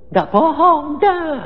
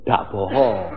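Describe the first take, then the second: First: "Ndak bohong" repeated high and loud; emphatic insistence. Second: Said in the usual way. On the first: Real, not acted. Preacher insists to the congregation, loud and high. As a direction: drive home "ndak" with force.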